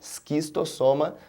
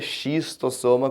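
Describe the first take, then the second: First: The word begins with an 'sk' sound. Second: The word begins with an 'sh' sound. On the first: The speaker calls it right. "O C H no latim tem som de K, então o correto seria" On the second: The speaker calls it wrong. "a gente não pronuncia xistossoma como às vezes aparece por aí"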